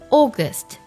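The first vowel is rounded, close to 'o'. "英式的发音August"

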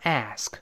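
It is said in an American accent. "美人读成ask"

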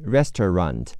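It is said in an American accent. "美式发音是"

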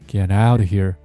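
The stress falls on the word out. The speaker calls it right. "那么这句话的中心呢应该放在这个out 上面。"

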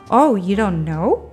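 The voice rises at the end. It is a surprised, questioning remark. "这里是以一个反问的态度说的，所以只要把尾音上扬"

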